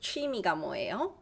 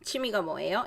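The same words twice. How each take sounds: First: The first word is said with every sound enunciated. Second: The first word is said loosely, not fully enunciated. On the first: This is the technically correct pronunciation. "Instead of" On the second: This is how people talk in everyday conversation. "we do not enunciate every single pronunciation. We just go blah blah blah"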